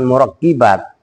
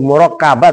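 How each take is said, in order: First: The vowel after the double k is 'i'. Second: The vowel after the double k is 'a'. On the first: The speaker calls it wrong. "bukan murakkibat" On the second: The speaker calls it right. "murakkabat bukan murakkibat"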